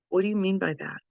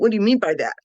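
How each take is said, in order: First: It is asked in a calm, grounded tone. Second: It is asked in a sharp, confrontational tone.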